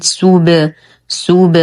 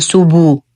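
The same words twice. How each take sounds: First: Bounced ب in سوب, short echo without a u; qalqalah on ba. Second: سوبو with a full u after the ب; wrong added vowel. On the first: Teacher modelling for students, echoing ba in سوب. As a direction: release the lips from rounding on the ب of سوب. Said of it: "نقلقل الباء بالرجوع عن الضم". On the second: Teacher showing a common mistake, سوبو ending in u. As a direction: round the lips into "bu" at the end of سوبو. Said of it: "وهذا خطأ". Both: Shown as a demonstration.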